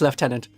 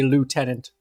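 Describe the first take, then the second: First: The word is said with an English pronunciation. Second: The word is said with a French pronunciation. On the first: This is how the word is said in English. "but pronounced Lieutenant" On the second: This is how the French say it. "the French who say lieutenant. That's a French pronunciation"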